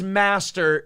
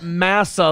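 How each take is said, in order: First: The word ends with a clear t-r sound. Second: The word ends in a soft ah sound. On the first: The speaker calls it right. "word is master" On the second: The speaker calls it wrong. "not massa"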